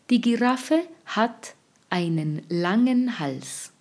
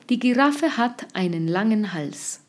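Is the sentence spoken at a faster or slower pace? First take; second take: slower; faster. First: The sentence is spoken at a slower pace. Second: The sentence is spoken at a faster pace.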